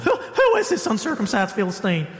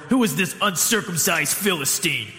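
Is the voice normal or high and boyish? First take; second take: high, boyish; normal. First: It is said in a young, pubescent voice. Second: It is said in a normal adult voice.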